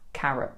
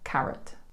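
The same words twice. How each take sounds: First: The final T is not pronounced. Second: The final T is clearly pronounced.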